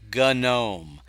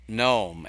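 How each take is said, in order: First: The word begins with a hard G sound. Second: The word begins with an N sound, no G. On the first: "the G has to be pronounced" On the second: "I ignore the G"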